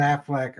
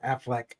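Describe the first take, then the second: First: "Affleck" ending in -ack; "Affleck" as AF-lack; Affleck said as Aflac. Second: "Affleck" ending in -eck; "Affleck" as AF-leck; corrected Affleck. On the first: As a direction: say "Affleck" to rhyme with "back". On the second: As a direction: say "Affleck" to rhyme with "deck". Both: Shown as a demonstration. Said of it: "or Affleck".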